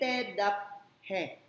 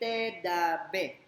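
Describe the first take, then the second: First: The p ends a syllable before a separate h. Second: The p is voiced, sounding like b. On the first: "Hindi te, dap, he" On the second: "Lalong hindi te, da, be"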